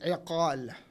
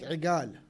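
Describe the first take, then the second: First: It is said in the standard Arabic form. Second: It is said in the regional dialect form. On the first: "with correct Arabic" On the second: "in their dialect"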